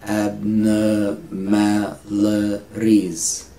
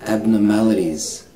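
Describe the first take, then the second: First: "Abnormalities" very slow, a gap between syllables. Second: Said in the usual way. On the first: Shown as a demonstration. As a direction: break "Abnormalities" into long separate syllables. Teacher slows word into syllables.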